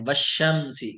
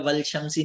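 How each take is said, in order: First: No 'l' is heard before 'shamsi'. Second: An 'l' is heard before 'shamsi'. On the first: The speaker calls it right. "वाव से मिलाया तो लाम साइलेंट हो गया" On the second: The speaker calls it wrong. "नहीं पढ़ते हैं"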